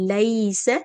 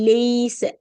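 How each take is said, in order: First: The first syllable is a lowered ai sound. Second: The first syllable is raised to an e sound. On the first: The speaker calls it right. "So இந்த ஹர்ஃப் லீன கீழ இறக்கணும்" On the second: The speaker calls it wrong. "லெய்ஸ லேன்னு தூக்கிருவாங்க"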